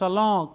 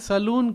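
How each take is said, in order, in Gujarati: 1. શબ્દ અનુનાસિક 'o' સ્વર થી અંત થાય છે. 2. શબ્દ 'oon' થી અંત થાય છે, પૂરા n સાથે. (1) "એમ મૂળ ઉચ્ચાર એ છે" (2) "આપણે સલૂન કહીએ"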